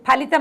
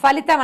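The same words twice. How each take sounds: First: The word begins with an aspirated p sound. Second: The word begins with an f sound. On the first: The speaker calls it right. "అనాలి" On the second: The speaker calls it wrong. "అనకూడదు"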